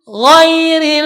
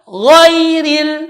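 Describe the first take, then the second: First: The word starts with a voiced gh sound. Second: The word starts with a voiced gh sound.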